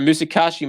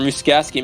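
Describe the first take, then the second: First: The name is said in its usual form. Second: The name is said in an altered, quirky form.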